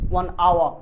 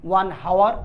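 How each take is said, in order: First: The word begins with a vowel, no h. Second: The word begins with a pronounced h sound. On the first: The speaker calls it right. "আমরা বলি one আওয়ার" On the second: The speaker calls it wrong. "আমরা কি হাওর বলি যে one হাওয়ার, না"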